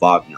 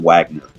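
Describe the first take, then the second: First: The name is said with a German pronunciation. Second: The name is said with an English pronunciation. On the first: The speaker calls it right. "I have to call him Wagner" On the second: The speaker calls it wrong. "I just can't say Richard Wagner"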